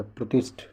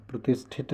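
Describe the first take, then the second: First: Said in the usual way. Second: प्रतिष्ठित ending in -thit; extra final syllable. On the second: Shown as a demonstration. Teacher quoting the wrong form, प्रतिष्ठित ending in -it. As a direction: say प्रतिष्ठित with an added -it. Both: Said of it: "प्रतिष्ठित नहीं होता".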